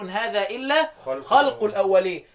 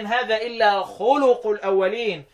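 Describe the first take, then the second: First: The word is said khalq, with one syllable. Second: The word is said khuluq, with two syllables. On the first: It refers to the lies of the ancients. "ابن كثير وابو عمرو والكسائي يقولوا" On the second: It refers to the customs of the ancients. "نافع وابن عامر وحمزة وعاصم يقولوا إيه؟"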